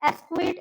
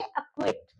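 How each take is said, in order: First: एक्विट said as "es-kwit", with an s; mispronounced acquit. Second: Said in the usual way. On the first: Shown as a demonstration. Teacher showing what not to say, एक्विट as "es-kwit". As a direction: put an s before the kw in एक्विट. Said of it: "ऐसे नहीं बोलेंगे हम". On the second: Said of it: "हम pronounce करेंगे".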